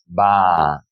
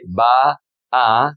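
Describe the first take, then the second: First: "va" drawn out slowly as one merged long vowel. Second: "va a" broken into two words with a gap; separated vowels. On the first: Teacher showing what we do say, long A. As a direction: stretch "va" into a single vaa, falling. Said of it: "like a long A". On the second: Teacher showing what we don't say, separated vowels. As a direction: say "va", stop, then "a". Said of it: "We don't say". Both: Shown as a demonstration.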